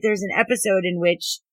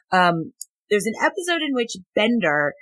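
First: Muffled by a hand; words behind the hand; hand over mouth. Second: Said in the usual way. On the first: Real, not acted. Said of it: "I had my hand over my mouth".

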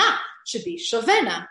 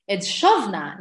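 First: Shovena with an e after the v; the wrong shovena, three syllables. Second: Shovna in two syllables, no vowel after sh; shovna said right. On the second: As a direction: say shovna, closed first syllable. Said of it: "not shovena". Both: Shown as a demonstration.

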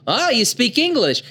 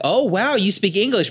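First: High, hammed-up gasp of wonder; mock dub surprise. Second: High, amazed mock gasp; mock surprise. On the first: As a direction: play the silly dub line big. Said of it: "But in the dub". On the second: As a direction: overdo the amazement. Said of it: "they'd be like".

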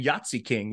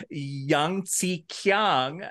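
First: "Yahtzee King" like the dice game plus king; misheard version. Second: Slow "Yangtze Kiang" with a hard K; anglicised mispronunciation. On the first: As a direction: say "Yahtzee King" as yaht-see king. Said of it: "you're saying Yahtzee King". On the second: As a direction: spell out "Yangtze Kiang" as yang-see kee-ang. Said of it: "they're mispronouncing". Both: Retold or imitated.

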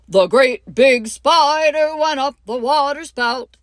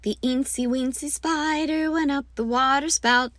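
First: Louder, higher, booming big spider voice; great big spider. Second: Lightly higher, small eensy spider voice; tiny spider voice. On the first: Teacher demoing the biggest spider for the class, loud and big. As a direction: make the spider huge and loud. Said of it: "And I get louder as we go". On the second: Teacher demoing the smallest spider to her class, lightly small. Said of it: "make the spider biggerer and biggerer". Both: Shown as a demonstration.

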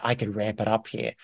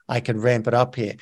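First: Soft, hushed thinking aloud; much softer musing to oneself; quiet realization. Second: Said in the usual way. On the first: Retold or imitated. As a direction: murmur it to yourself as the idea dawns. Quoting own realization, first time.

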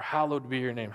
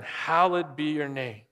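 First: Hallowed said in full as three syllables, HAL-low-ed, the middle vowel long. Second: Hallowed said as two quick syllables, HAL-lid. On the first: Preacher offering the other reading, Hallowed in full as HAL-low-ed. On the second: Preacher reading the prayer, hallowed clipped to HAL-lid. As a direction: clip hallowed down to HAL-lid, the second vowel swallowed. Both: Shown as a demonstration. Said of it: "however you wanna say that".

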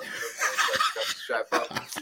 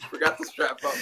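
First: Slow, breathy laughing through the words; laughing at his own blunder. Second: Real laughter, louder and higher; louder laughing. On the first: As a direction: giggle it out slowly. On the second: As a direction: repeat it louder, cracking up. Repeats it laughing harder. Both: Real, not acted.

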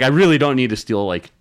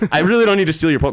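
First: A touch louder, irritated protest; aggravated denial. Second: Higher and louder, cut off mid-word in exasperation; exasperated denial. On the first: To the Walgreens cashier accusing him, mildly irritated retold denial. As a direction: push back at the cashier, annoyed but held in. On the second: To the cashier blaming Pokemon thieves, exasperated louder retold outburst. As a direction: blurt it out, fed up with the accusation. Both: Retold or imitated. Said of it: "really aggravated".

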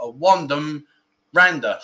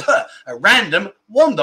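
First: "wandom rander" said with the first sounds swapped, r and w traded; tongue-slip spoonerism. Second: Said in the usual way. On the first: Shown as a demonstration. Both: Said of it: "my English teacher was right".

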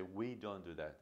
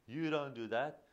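First: "We" stressed, softer, falling; gentle inclusive "We don't do that.". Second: "You" stressed, voice rising; rising accusing "You don't do that.". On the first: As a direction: include the child with a soft "We". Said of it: "We say". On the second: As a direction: point at the child with "You". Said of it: "not just saying". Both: Shown as a demonstration.

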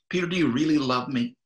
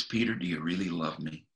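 First: Urgent repeated question from Jesus; pressing question. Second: Softer and lower, tender asking; hushed tender question from Jesus; gentle question. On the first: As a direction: push him harder this time. Jesus presses Peter again. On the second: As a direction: ask quietly, as a gentle friend. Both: Retold or imitated.

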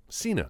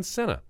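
First: Cena said as SEE-nuh; corrected Cena. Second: Cena said as SEN-uh; mispronounced Cena. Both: Shown as a demonstration.

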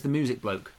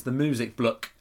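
First: Said in the usual way. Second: "bloke" said the Norfolk way, short vowel; Norfolk accent. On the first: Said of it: "but actually, no, it's Norfolk". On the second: Shown as a demonstration. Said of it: "say it properly if you're from Norfolk".

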